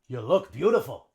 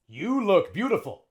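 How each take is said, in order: First: The vowel in 'you' is a short schwa. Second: The vowel in 'you' is long and full. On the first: The speaker calls it right. "we would say" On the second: The speaker calls it wrong.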